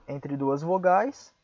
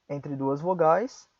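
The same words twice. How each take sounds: Both takes have the same delivery.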